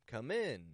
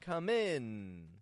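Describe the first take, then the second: First: The final N sound is very short. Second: The final N sound is held long. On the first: The speaker calls it right. "The N is very short, but the I is raising in the tone" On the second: The speaker calls it wrong. "I'm not making the N real long. I'm not going"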